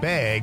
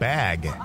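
First: It has a Wisconsin vowel, like 'beg'. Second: It has a standard vowel, like 'bat'.

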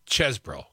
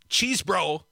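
First: The first vowel is a short e sound. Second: The first vowel is a long ee sound. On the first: The speaker calls it right. "It's Chesbro. Put another way, the E, Ease, is like dessert, not desert" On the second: The speaker calls it wrong. "It's not cheese, bro"

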